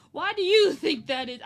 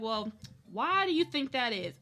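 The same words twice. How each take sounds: First: The question thrown out again, louder and pushier; louder mock question. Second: Said in the usual way. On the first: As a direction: mimic the caseworker, louder. Caseworker's question repeated, louder.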